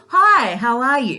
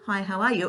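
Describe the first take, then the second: First: It is said in a warm, lively way. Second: It is said in a flat, routine way.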